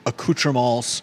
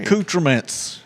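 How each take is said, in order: First: The word has a French-style, non-American pronunciation. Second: The word has an Americanized pronunciation.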